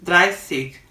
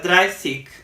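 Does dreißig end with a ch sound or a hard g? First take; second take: hard g; hard g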